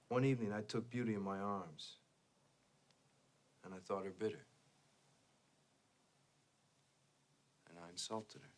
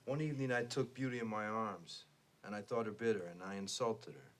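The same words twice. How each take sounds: First: A strategic pause comes before the last phrase. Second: It runs on with no strategic pause.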